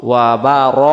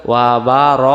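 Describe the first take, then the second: The two takes are said the same way.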